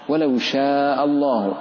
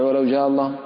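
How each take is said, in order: First: The verb starts with a hissing sh sound. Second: The verb starts with a voiced j sound. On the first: The speaker calls it right. "لا شا" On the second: The speaker calls it wrong. "ولا تقول أثناء قراءتك وأنت تسرع"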